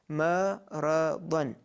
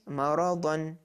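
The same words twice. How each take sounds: First: Each syllable is said separately with breaks. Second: The syllables are blended smoothly into one word. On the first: "Call out phase" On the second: "Reading phase"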